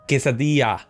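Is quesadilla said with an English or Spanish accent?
Spanish. It is said with a Spanish accent. "everyone goes, actually, it's"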